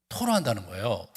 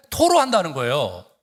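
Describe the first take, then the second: First: Said in the usual way. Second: 토로한다는 punched loud with a falling close; stressed pour out. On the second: Shown as a demonstration. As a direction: lean hard on 토로한다는. (토로한다는을 힘주어 내리꽂듯)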